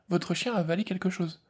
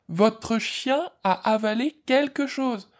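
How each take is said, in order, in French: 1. Elle est dite à un volume de voix normal. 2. Elle est dite fort, à voix haute.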